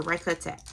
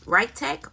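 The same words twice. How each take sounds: First: Ricotech said as "RYE-kuh-tek"; three-syllable pronunciation. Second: Ricotech said as "RYE-tek"; two-syllable pronunciation. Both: Shown as a demonstration. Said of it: "I think that's how you say it".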